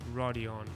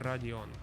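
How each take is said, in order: First: The R is soft, like an English R. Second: The R is hard, like a Russian R. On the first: The speaker calls it wrong. "It's not Rodion" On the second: The speaker calls it right. "with the hard R in it"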